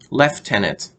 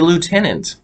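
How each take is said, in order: First: The first syllable sounds like 'left'. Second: The first syllable sounds like 'loo'. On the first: "the British pronounce it lieutenant" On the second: "they don't pronounce it that way"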